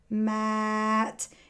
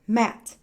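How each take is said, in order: First: The word is said slowly and stretched. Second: The word is said quickly and short. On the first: "Let's say that like a bird" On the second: "And real fast like a rabbit"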